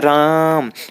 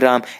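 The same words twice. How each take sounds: First: The vowel is drawn out, like calling someone far away. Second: The word is said normally, vowel short.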